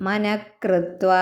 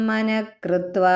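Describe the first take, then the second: No difference in how they are said.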